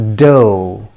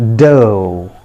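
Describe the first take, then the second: First: It ends in a long o vowel. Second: The same.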